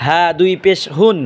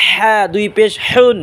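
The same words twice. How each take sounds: First: "হা" and "হুন" with a plain h from the base of the throat; "হা দুই পেশ হুন" with an open glottal h; deep-throat H. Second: "হা" and "হুন" with a tight h from mid-throat; slow "হা দুই পেশ হুন" with Arabic pharyngeal h. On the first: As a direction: breathe the h of "হুন" from where the throat begins. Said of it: "হা উচ্চারণ করব গলা শুরু". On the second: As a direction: squeeze the h of "হুন" from the middle of the throat. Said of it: "গলার মাঝখান থেকে উচ্চারণ করব". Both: Shown as a demonstration.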